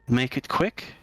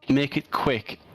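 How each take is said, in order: First: The voice rises at the end like a question. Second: The voice falls at the end like a statement. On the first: The words are unfamiliar and being processed. "she says it as a question" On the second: The words are repeated back exactly. "she says it precise pronunciation"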